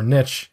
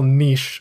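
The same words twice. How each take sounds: First: It is said with an American pronunciation. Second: It is said with a non-American pronunciation.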